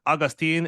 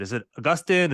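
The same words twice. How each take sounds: First: Put-on Augustine said AW-gus-teen, stress on the first syllable; Augustine rhyming at the end with "seen". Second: Augustine said uh-GUS-tin, stress on the middle syllable. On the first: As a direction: offer Augustine with a long "teen" ending. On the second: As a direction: ask with Augustine ending in a short "tin". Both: Shown as a demonstration. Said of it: "How do you pronounce it?".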